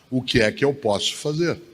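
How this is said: It is said in a discouraged, giving-up tone.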